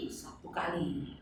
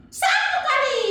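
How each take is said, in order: First: Said in the usual way. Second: Put-on high, bright kid's guess; high child puppet voice. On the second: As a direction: answer like an eager little girl puppet. Tiur answers the count.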